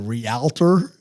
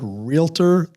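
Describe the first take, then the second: First: It has an extra vowel between real and tor. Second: It has no extra vowel between real and tor. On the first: The speaker calls it wrong. "they say realtor" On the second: The speaker calls it right. "instead of saying the word realtor"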